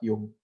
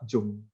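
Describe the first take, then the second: First: The name begins with a 'y' sound. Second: The name begins with an English 'j' sound. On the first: The speaker calls it right. "padahal bacanya itu" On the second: The speaker calls it wrong. "orang sering banget bacanya itu"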